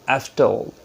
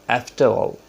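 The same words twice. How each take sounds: No difference in how they are said.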